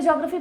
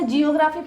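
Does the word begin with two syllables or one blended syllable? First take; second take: one syllable; two syllables. First: The opening is blended into one syllable, jyo. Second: The opening is split into two syllables, jee-yo. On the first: The speaker calls it right. "ज्योग्राफी pronounce करते हैं" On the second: The speaker calls it wrong. "इसे जियोग्राफी pronounce नहीं करते"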